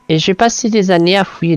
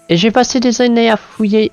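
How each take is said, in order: First: The line is delivered in a plain, unpretentious manner. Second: The line is delivered in a pretentious, pompous manner. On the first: The speaker calls it right. "je réessayais" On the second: The speaker calls it wrong. "ça fait prétentieux"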